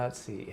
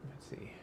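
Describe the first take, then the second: First: Said in the usual way. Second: Barely voiced whisper of "let's see"; whispered to herself. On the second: Real, not acted. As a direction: whisper it while reading. Reading comments to herself.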